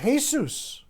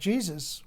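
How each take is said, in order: First: The word begins with an H sound. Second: The word begins with an English J sound. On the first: The speaker calls it right. "it's pronounced Jesus" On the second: The speaker calls it wrong. "It's not Jesus"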